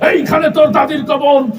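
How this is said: It is shouted forcefully like a heated political speech. The recitation drives listeners away. The speaker calls it wrong. "রাজনীতির মঞ্চে গরম বক্তব্য দিয়ে অভ্যাস, তো ওই নেতার আবৃত্তির ঢং ছিল এরকম"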